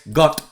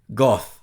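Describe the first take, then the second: First: The word ends with a t sound. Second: The word ends with a th sound. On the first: The speaker calls it wrong. "no es got" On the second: The speaker calls it right. "con T H en inglés es goth"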